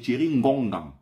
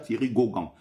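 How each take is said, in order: First: The surname starts with an N sound. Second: The surname starts without an N sound. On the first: The name keeps its original local form. The speaker calls it right. "c'est Thierry Ngongan" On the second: The name is made to sound French. The speaker calls it wrong. "ce n'est pas Thierry Gauguin"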